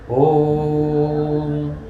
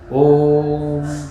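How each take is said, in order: First: The 'o' vowel is held extra long. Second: The 'o' vowel is held long. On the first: "ये प्लुत उच्चारण है" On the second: "ये दीर्घ उच्चारण है"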